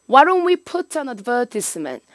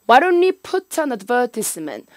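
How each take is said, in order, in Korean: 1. 영국식 억양으로 말했어요. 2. 영국식 억양으로 말했어요.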